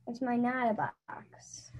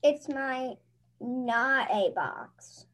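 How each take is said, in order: First: Whispered like a secret, no voice. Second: Put-on slow kid voice. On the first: Acted. Child reading the kid part, repeating it as a secret whisper. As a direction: hush it to a breathy secret. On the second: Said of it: "[name]'s gonna read the kid voice".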